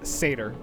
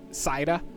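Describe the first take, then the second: First: The word is said like 'sa-tyr'. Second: The word is said like 'sai-da'. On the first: This is the basic English pronunciation. "basic English is is satyr" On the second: This is the Old Norse pronunciation. "the Old Norse pronunciation is Saida"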